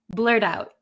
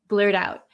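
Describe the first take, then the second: First: It is said quickly with a soft D sound. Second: It is said quickly with a soft D sound.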